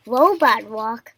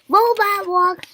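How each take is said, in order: First: Loud, slow echo in usual pitch; exclaimed. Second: High, loud, slow command; shouted. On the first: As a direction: repeat the move slowly. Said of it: "exclaimed Elephant". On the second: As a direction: call out the move slowly. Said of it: "shouted Piggy". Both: A narrator's reading.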